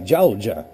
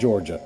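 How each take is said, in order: First: It is said in a Southern American accent. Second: It is said in a plain, non-Southern accent. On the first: "my wife has the southern accent, um, and that's how she would pronounce it" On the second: "I do not have the southern accent"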